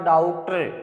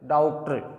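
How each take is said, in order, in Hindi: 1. पहला स्वर 'aa' और 'o' के बीच का है। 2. पहला स्वर 'aa' और 'o' के बीच का है।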